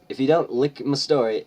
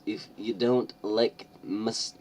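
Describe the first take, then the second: First: "lick" said with a short i, exactly as written; mock "lick" said high and loud with a short i; misread lick. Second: Said in the usual way. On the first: Shown as a demonstration. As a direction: read it as "lick", not "like", and push it loud.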